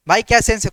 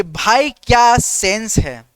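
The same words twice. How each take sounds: First: Said in the usual way. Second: Slow, drawn-out praise of a clever friend; slow and savouring, a touch of awe; slow admiring line. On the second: Shown as a demonstration. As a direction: stretch each word in mock admiration. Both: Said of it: "एक और dialogue यहाँ पे".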